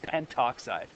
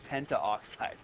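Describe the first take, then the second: First: No vowel is said before 'oxide'. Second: An 'a' vowel is said before 'oxide'. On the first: The speaker calls it right. "It's just pentoxide" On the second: The speaker calls it wrong. "We just don't say pentaoxide"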